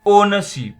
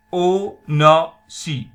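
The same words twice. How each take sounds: First: OWNERSHIP said whole, high and loud, no final P; "ownership" unbroken, last P dropped; silent final P. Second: OWNERSHIP slowly split, ow... ner... shi; "ownership" with long gaps between syllables. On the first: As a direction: call out "ownership" as o-ner-shi. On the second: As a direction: break "ownership" into three loud beats, dropping the P. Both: Shown as a demonstration. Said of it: "P is silent here".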